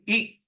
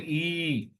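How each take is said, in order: First: The vowel is short. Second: The vowel is long. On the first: The speaker calls it right. "The third syllable is E, Hraswa" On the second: The speaker calls it wrong. "not E"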